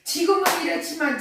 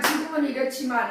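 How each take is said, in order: First: 지금은 punched higher, quicker; stress on 지금은. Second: Said in the usual way. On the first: Shown as a demonstration. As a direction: lean hard on 지금은, then let it fall. (지금은에 힘을 주어 강조) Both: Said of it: "이제 그 말이 강조하는 거예요".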